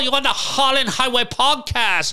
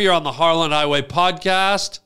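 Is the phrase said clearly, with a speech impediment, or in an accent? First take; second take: accent; clearly. First: It is said in a put-on foreign accent. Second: It is said clearly in the speaker's normal voice. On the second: "And I can say it clear"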